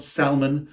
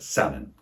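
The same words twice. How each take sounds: First: SALMON with the L sounded, pitched up; wrong salmon with L. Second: SALMON with no L sound, like SAM-un; correct silent-L salmon. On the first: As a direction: say salmon wrongly, voicing the L, higher. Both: Shown as a demonstration. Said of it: "the L is not pronounced".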